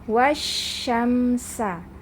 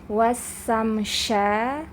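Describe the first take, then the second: First: The first is 'sh', the second is 's'. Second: The first is 's', the second is 'sh'. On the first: The speaker calls it right. "tapi membacanya wasyamsa" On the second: The speaker calls it wrong. "jangan sampai dibaca"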